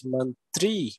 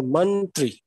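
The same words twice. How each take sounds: First: Mantri with the second syllable stretched out; stress on TRI. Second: Mantri with the first syllable drawn out; stress on MAN. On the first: Teacher showing how Hindi mantri is never said, stress on "tri". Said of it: "we do not ever say that". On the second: Teacher showing extra force Hindi does not use, stress on "man". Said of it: "We do not give extra". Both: Shown as a demonstration.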